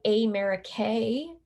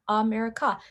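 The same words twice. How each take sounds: First: "America" with long ay at start and end; mock "ay-merica-ay" with long A; wrong long A. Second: "America" with relaxed uh at both ends; lazy schwa at start and end of "America". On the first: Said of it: "we don't say". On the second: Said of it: "That's a schwa sound". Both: Shown as a demonstration.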